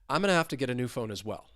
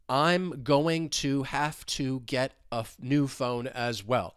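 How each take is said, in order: First: The words flow smoothly together without breaks. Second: Each word is said separately, sounding robotic. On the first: The speaker calls it right. "I'm just smoothly moving right through that sentence" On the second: The speaker calls it wrong. "the individual words, which is not how you're going to hear me say it"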